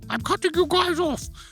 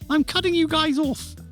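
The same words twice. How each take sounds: First: It is said in the barman's put-on accent. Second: It is said in a plain, normal voice.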